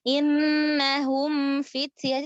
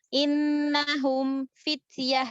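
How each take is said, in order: First: The sound flows on without stopping after m. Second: The sound stops briefly after the m. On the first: The speaker calls it right. "tetap ngalir" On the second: The speaker calls it wrong. "terjeda tersaktah dia kayak gitu suara suaranya terputus"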